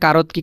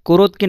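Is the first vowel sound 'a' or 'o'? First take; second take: a; o. First: The first vowel sounds like 'a'. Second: The first vowel sounds like 'o'. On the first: The speaker calls it right. "এটার উচ্চারণ আ হচ্ছে কা" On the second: The speaker calls it wrong. "এখানে হওয়ার দরকার ছিল কোরত কি"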